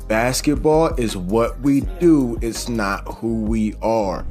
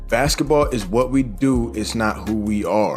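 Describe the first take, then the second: First: It is spoken slowly and deliberately. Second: It is spoken at a normal, quicker pace.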